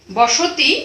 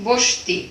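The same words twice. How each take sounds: First: বসতি with the অ after স sounded, three syllables; full form demo. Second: বস্তি with স and ত joined, the অ gone; vowel dropped demo. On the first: Teacher shows students the full বসতি, vowel kept. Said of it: "বসতি যখন আমরা উচ্চারণ করছি". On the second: Teacher shows students বস্তি with the vowel lost. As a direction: say বস্তি as bosh-ti in two syllables. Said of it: "বস্তি যখন বলছি". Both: Shown as a demonstration.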